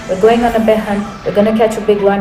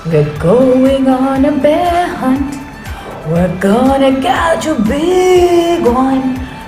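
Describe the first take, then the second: First: It is read in a flat, dull voice. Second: It is read with lively, expressive energy. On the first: It is boring even for adults to listen to. The speaker calls it wrong. "If you read like that, it's boring" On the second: Children start understanding what big means. The speaker calls it right. "when you say big and you're using your hands and your body and you're using your voice"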